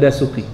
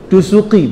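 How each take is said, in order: First: The first vowel is pronounced 'a'. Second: The first vowel is pronounced 'u'. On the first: The speaker calls it wrong. "bukan Dasuki" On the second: The speaker calls it right. "Yang betul Dusuki"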